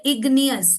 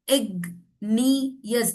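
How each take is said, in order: First: Said in the usual way. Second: Igneous broken up, ig, then nee-us; syllable by syllable. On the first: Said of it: "So when we say igneous". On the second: Shown as a demonstration. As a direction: split igneous after a hard g. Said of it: "ग पे आपकी चिन touch हो रही है". (igneous को इग - नियस तोड़कर)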